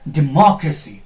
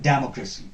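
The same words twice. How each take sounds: First: The second syllable is louder, longer and higher. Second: The second syllable is not the stressed one. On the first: The speaker calls it right. "Ma will be little louder, little uh, longer, and uh, on a higher pitch" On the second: The speaker calls it wrong.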